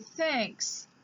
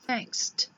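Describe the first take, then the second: First: The word ends in a plain s sound. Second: The word ends with an added t sound. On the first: The speaker calls it right. "you say thanks" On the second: The speaker calls it wrong. "not thankst"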